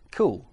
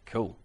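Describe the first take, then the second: First: It is said with sincere enthusiasm. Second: It is said with heavy sarcasm. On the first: The idea is genuinely admired. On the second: The idea is not admired at all.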